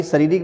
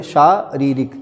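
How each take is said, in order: First: शारीरिक begun with short "sa"; wrong form. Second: शारीरिक with long "shaa"; correct form. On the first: Teacher shows a misspelling, शारीरिक with short "sa". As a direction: say शारीरिक as sa-ree-rik. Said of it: "कभी शारीरिक लिख देते हैं". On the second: Teacher gives right word, शारीरिक with long "shaa". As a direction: say शारीरिक slowly as shaa-ree-rik. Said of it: "सही है". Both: Shown as a demonstration.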